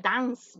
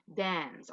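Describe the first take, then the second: First: "dance" with an open A, as dahns; mispronounced "dance", A as in Spanish; wrong pronunciation. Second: "dance" with an E, as dens, softer; corrected pronunciation. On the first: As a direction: say "dance" with AH instead of E. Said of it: "no es dance". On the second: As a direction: say "dance" softly with an E vowel. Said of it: "es con E". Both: Shown as a demonstration.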